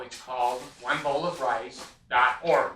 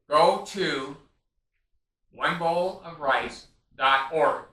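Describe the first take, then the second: First: Said in the usual way. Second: Each word spelled out slowly and loud, "one bowl of rice dot org"; slow emphatic address. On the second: Real, not acted. Urging viewers to visit his charity site, "one bowl of rice dot org" slow and loud.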